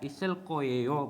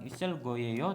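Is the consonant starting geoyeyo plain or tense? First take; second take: tense; plain. First: The g becomes a tense kk sound. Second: The g is a plain, lax g sound. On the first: The speaker calls it right. "gioknya akan berubah menjadi sang giok double k" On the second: The speaker calls it wrong.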